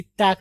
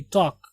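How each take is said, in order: First: "टैक" with the 'a' of cat; गलत उच्चारण. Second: "टॉक" with an 'aw' sound, pitched lower; सही उच्चारण. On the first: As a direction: say "टैक" as TACK. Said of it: "टैक नहीं". ("टैक" का गलत उच्चारण, 'ऐ' के साथ) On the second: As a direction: say "टॉक" as TAWK. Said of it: "ओ की आवाज आएगी". ("टॉक" का सही उच्चारण, 'ओ' की आवाज़) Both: Shown as a demonstration.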